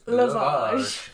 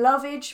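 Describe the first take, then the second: First: Said in a posh, Oxford-like accent. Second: Said in a plain, everyday accent.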